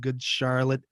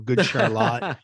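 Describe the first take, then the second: First: Charlotte is pronounced the common, usual way. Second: Charlotte is pronounced the local Vermont way.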